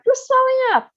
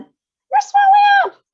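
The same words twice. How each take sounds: First: High loud scream. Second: Very high, very loud drawn-out scream, slow; bigger scream. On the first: Mother screams at swelling daughter, high and loud. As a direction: scream in horror. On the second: Mother screams again louder at swelling daughter. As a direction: stretch the scream in full panic. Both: A narrator's reading. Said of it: "screamed Miss Beauregard again".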